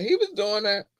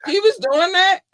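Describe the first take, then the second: First: Said in the usual way. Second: High, loud disbelief; shocked. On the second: Real, not acted. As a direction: gasp out the question in shock. Shocked question.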